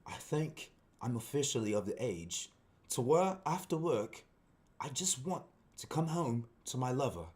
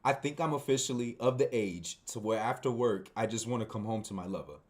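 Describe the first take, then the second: First: Measured, halting put-on British accent; English accent. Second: Said in the usual way. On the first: Shown as a demonstration. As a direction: read it like a refined Englishman, pausing between phrases. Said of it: "an English accent". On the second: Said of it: "my accent right now".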